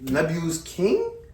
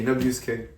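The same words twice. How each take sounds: First: The voice rises at the end, like a question. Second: The voice falls at the end, like a statement. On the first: It is asked, not claimed. The speaker calls it wrong. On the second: It is stated as a claim. The speaker calls it right.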